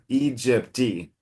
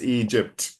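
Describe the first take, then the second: First: A soft extra vowel follows the final consonant. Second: The word ends on a hard bare consonant. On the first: The speaker calls it wrong. "a little bit of a Carioca pronunciation" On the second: The speaker calls it right. "harsh, harsh consonant sound"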